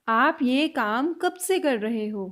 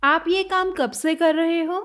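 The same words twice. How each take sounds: First: Very slow repeat. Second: Said in the usual way. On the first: Shown as a demonstration. Teacher slowing the question down for learners. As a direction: stretch it out word by word. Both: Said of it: "next sentence".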